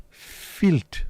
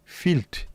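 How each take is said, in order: First: Higher, put-on voice, disgusted Filth; hammed-up disgust. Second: Higher, disgusted Filth; mock disgust. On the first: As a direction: ham up the disgust. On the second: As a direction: sneer the word in disgust. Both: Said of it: "repeated mock disgust".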